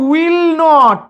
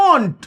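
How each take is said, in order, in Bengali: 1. এটা দুটো আলাদা পূর্ণ শব্দ হিসেবে বলা হয়। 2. এটা ছোট করে একটা সংকুচিত শব্দ হিসেবে বলা হয়। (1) "এই যে উইল নট" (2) "এই উইল আর নটকে আমরা একসাথে কি বলি দেখুন, বলি ওন্ট"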